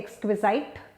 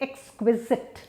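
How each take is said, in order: First: The last syllable rhymes with "sight". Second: The last syllable rhymes with "sit". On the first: The speaker calls it wrong. "Though it looks like sight, we don't say exquisite" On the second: The speaker calls it right. "we say exquisite. Okay? But it's sit"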